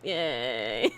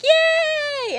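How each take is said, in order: First: The cheer is quiet and flat. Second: The cheer is loud and excited.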